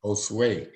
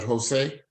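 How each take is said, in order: First: Josue echoed as "o-SWAY"; repeating corrected pronunciation. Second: Jose said as "ho-SAY"; Jose in two syllables, "ho-say", without a w; asking about pronunciation. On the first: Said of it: "you pronounce that". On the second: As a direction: say Jose as "ho-SAY", checking it. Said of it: "you pronounce that Jose". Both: Shown as a demonstration.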